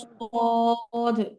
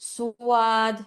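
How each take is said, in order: First: The vowel follows the consonant with no glide. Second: A w-glide comes before the long vowel. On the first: The speaker calls it right. "সবাই হচ্ছে সদ" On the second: The speaker calls it wrong. "এরকম ভাবে পড়বেন না"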